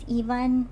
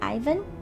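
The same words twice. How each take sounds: First: Ivan is said the story's intended way. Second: Ivan is said the familiar everyday way. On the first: This is how the story intends it. "the canon way to, to say it is Ivan" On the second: This is how people the speaker knows say it. "I've always pronounced it as Ivan"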